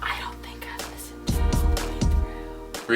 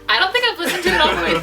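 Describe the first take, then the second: First: It is said at normal volume. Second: It is said more loudly.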